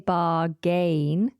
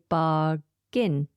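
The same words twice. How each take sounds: First: The second syllable has a full, clear vowel. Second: The second syllable has a weak, reduced vowel. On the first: The speaker calls it wrong. "So we don't say bargain" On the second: The speaker calls it right. "we don't pronounce the second A"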